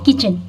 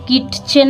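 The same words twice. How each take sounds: First: No separate t sound is heard before the ch. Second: A separate t sound is pronounced before the ch. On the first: The speaker calls it right. "इसको बोला जाता है किचन। यहाँ पे टी silent word है" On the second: The speaker calls it wrong. "इसलिए यहाँ पे हम किचन नहीं पढ़ते हैं"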